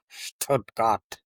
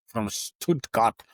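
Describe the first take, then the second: First: Stuttgart with a German accent; a hint of German accent on Stuttgart; mock German accent. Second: Said in the usual way. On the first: Shown as a demonstration. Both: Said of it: "once I start my German accent".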